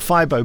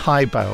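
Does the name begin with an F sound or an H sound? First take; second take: F; H. First: The name begins with an F sound. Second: The name begins with an H sound. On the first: The speaker calls it wrong. "I thought Fibo, but no, it's not" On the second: The speaker calls it right. "Hybo, I think I'd pronounce it"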